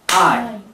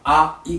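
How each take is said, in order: First: It is one gliding syllable in one beat. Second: It is two separate vowels in two beats. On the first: "I っていうのはこれは一音節ですね、英語ではね" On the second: "日本語でI っていうときは…これ二音です。二音節です。"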